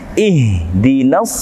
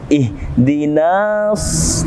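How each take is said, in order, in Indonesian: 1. Vokal itu dibaca pendek langsung menyambung ke kata berikutnya. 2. Vokal itu dibaca panjang selama dua ketukan. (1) "langsung masuk kepada as-sirata" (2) "Tidak dibaca dua harokat seperti ihdinas, tidak"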